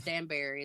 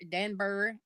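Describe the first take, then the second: First: "Dan Barry" as two words, with a full BEAR-ee; local pronunciation. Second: "Danbury" with the ending reduced to "bury"; others' pronunciation. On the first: Telling how we pronounce the place, local pronunciation. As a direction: say "Dan Barry" like Dan plus berry. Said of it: "is the way we pronounce it". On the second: Showing how some people say the place, others' pronunciation. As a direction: say "Danbury" as DAN-bree or DAN-burr-ee, unstressed ending. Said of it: "some people say it Danbury". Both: Shown as a demonstration.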